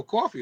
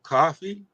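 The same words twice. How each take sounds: First: Imitated New York "coffee" as "caw-fee"; New York accent on "coffee". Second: "Coffee" as "cah-fee", open "ah", questioning; tentative rising "cah-fee" for "Coffee"; alternative pronunciation. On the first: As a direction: copy a New Yorker's rounded vowel in "coffee". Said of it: "No, that's a New York". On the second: Shown as a demonstration. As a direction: try "Coffee" with an open "ah" vowel. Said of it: "how you supposed to say it?".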